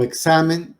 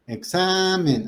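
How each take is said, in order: First: Said in the usual way. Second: "Examen" with the middle A pitched high and drawn out; stress on the A. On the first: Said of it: "pero con acento en la A". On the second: Shown as a demonstration. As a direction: lean the voice on the A of "Examen", exSAAmen. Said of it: "aquí está la fuerza de la voz". («Examen» con la fuerza de la voz en la A, aguda y alargada)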